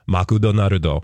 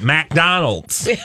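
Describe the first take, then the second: First: It is said with Japanese-style sounds. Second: It is said with English-style sounds. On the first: "But they don't Makudonarudo" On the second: "They don't say McDonald's"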